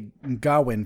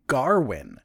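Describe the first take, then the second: First: No R sound follows the first vowel. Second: An R sound follows the first vowel. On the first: "I will not put R's where they're not necessary" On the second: "it sounds like everyone's saying Garwin"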